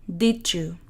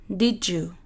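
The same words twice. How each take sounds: The two takes are said the same way.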